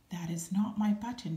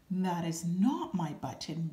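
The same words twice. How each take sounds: First: A mild storybook shout. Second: A mild wail, a bit louder. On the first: Toad shouting at Frog about another wrong button, mild shout. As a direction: Toad raising his voice in frustration. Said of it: "shouted Toad". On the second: Toad wailing to the raccoon over the wrong button, mildly voiced. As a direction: Toad half-wails in dismay. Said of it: "wailed Toad". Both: Acted.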